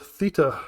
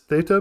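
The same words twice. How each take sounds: First: The word is pronounced the British way. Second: The word is pronounced the American way. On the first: This is how it is said in Britain. "But in Britain, uh, where I grew up ... we use the word theta" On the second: This is how Americans say it. "Lance is convinced it's theta because he's an American"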